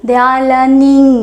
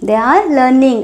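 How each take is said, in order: First: They are learning drawn out slowly for learners; deliberate teacher pacing; slow model phrase. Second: Said in the usual way. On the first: Shown as a demonstration. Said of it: "teacher models then repeats". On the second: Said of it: "teacher repeats at normal pace".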